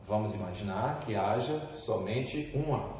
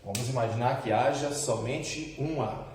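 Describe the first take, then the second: No difference in how they are said.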